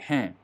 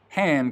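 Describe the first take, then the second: First: The final d sound is swallowed. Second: The final d sound is clearly pronounced.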